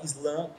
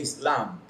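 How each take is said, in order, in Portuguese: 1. Há um i extra antes do s. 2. A palavra começa direto com o som de s. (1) "a gente fala Islã aqui no Brasil" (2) "o correto seria Islã, porque não tem o I na frente"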